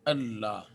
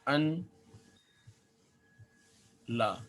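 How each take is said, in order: First: The two parts are joined with a doubled l. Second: The two parts are split, the first ending in n. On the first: "लिखने में ये यूँ है" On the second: "ये इसकी असल शक्ल है"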